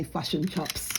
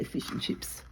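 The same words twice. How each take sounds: First: New Zealand vowels, "fush and chops"; New Zealand accent. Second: Said in the usual way. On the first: Shown as a demonstration. Showing how New Zealanders talk, flattened Kiwi accent. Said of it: "They say". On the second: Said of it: "whereas we say".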